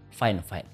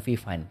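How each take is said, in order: First: The first part sounds like 'fine'. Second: The first part sounds like 'vee'. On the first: The speaker calls it right. "yang bener itu nyebutnya" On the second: The speaker calls it wrong. "bukan V-Fine"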